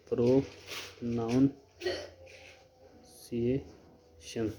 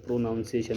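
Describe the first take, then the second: First: प्रोनाउंसिएशन stretched out very slowly, each syllable drawn long and soft; slow careful demo. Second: Said in the usual way. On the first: Shown as a demonstration. (प्रोनाउंसिएशन को बहुत धीरे, एक एक अक्षर खींचकर बोलना) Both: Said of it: "इसको बोलते हैं प्रोनाउंसिएशन".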